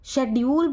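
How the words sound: It is said with a British pronunciation. "शेड्यूल बोलते हैं हम इसे ब्रिटिश इंग्लिश में"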